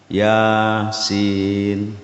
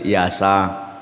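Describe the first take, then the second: First: Each letter is named separately by its full name. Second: The letters are blended into short vowelled syllables. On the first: The speaker calls it right. "Jadi dibaca alif lam mim yasin toha" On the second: The speaker calls it wrong. "Kalau Yasin, Yasa. Tapi bukan begitu"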